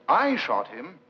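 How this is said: The voice rises at the end, like a question.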